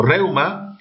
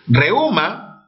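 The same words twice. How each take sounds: First: "reuma" as REU-ma; stress on REU. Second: "Reuma" as re-Ú-ma; stress on the U. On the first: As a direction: glide EU together in "reuma", weight on the E. ("reuma" con diptongo: REU-ma) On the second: ("Reuma" con hiato: re-Ú-ma) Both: Shown as a demonstration. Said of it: "palabras con doble acentuación".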